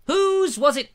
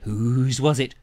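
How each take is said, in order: First: High, louder teasing repeat; squeaky mock-mysterious whose; mock suspense. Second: Said in the usual way. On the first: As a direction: tease it up high like a riddle.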